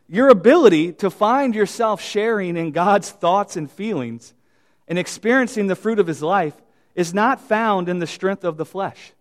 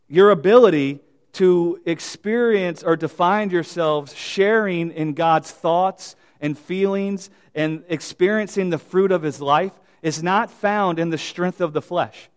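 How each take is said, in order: First: It is said at normal speed. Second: It is said slowly.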